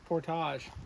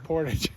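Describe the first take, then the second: First: It is pronounced the French way. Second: It is pronounced the Minnesotan way. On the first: "If you're French" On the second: "If you're Minnesotan, you say"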